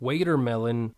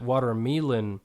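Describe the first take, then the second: First: The first syllable sounds like 'wait'. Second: The first syllable sounds like 'what'. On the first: "pronounces the word watermelon waitermelon" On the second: "pronounce it watermelon"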